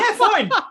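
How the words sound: It is said in a cheerful, friendly way.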